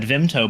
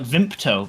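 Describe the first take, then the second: First: It is said with no p sound after the m. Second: It is said with a p sound after the m. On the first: "I always have said Vimto" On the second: "with a P"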